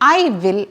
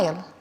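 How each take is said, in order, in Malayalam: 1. രണ്ട് വാക്കുകളും പൂർണ്ണമായി പറയുന്നു. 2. രണ്ട് വാക്കുകളും ചേർന്ന് ഒരു ചെറിയ ശബ്ദമായി മാറുന്നു. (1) "ഐ വിൽ അല്ല"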